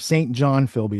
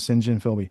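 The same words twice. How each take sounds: First: The name is said with the American pronunciation. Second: The name is said with a non-American pronunciation. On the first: This is how Americans say the name. The speaker calls it wrong. "is how Americans say it" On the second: This is how the man's name is actually said. The speaker calls it right. "but his name's"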